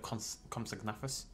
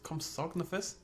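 First: The stress falls on the 'na' syllable. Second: The stress falls on the 'og' syllable. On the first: The speaker calls it right. "instead of Comsognathus" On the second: The speaker calls it wrong. "Put the emphasis on the OG rather than the NA"

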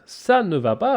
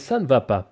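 First: The phrase is said at a normal, careful pace. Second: The phrase is said quickly, as in fast speech.

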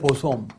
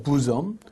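First: It is read as spelled, 'bo-som'. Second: It is said as 'boo-zum'. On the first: The speaker calls it wrong. "발음은 보솜이 아니고" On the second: The speaker calls it right. "부점입니다"

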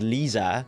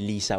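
First: The middle consonant is a buzzing z sound. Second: The middle consonant is a hissing s sound. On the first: The speaker calls it wrong. "I also did pronounce it as Lisa" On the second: The speaker calls it right. "it's supposed to be Lisa with an S"

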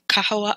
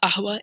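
First: The word begins with a k sound. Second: The word begins with a glottal stop. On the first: "instead of saying kahwa" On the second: "It is often like it's cut to a hamza"

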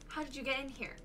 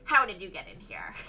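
First: It is said in her normal voice. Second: It is said in a Mister Krabs voice.

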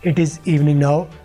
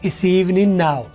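First: It is said in full as two words. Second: It is contracted into one short syllable.

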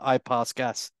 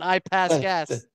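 First: It is said without an American accent. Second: It is said in an American accent.

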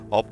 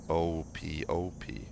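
First: It is spoken as a single word. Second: Each letter is spoken separately. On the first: "I thought it was a word" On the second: "ope is pronounced letter by letter"

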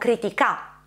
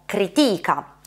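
First: The stress is on the last syllable. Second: The stress is on the second syllable. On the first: "Se l'accento cadesse sull'ultima sillaba, avremmo critica" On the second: "Se l'accento cadesse sulla penultima sillaba, avremmo critica, cade sulla i della seconda sillaba"

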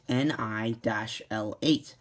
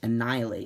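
First: The name is said slowly, in separate parts. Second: The name is said quickly, run together. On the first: It sounds like an ordinary droid name. "it sounds like a normal Star Wars name at first" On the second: It sounds like the word annihilate. "once you say it fast"

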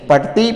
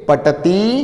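First: The word is said quickly and fluently. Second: The word is said slowly and deliberately.

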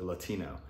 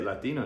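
First: The word is said with an English pronunciation. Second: The word is said with a Spanish pronunciation.

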